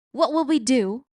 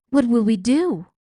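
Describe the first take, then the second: First: Repeated wail, a bit less loud. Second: Loud wailing plea. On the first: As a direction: wail it again, higher. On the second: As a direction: wail it out in despair. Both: A narrator's reading. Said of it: "wailed Cook".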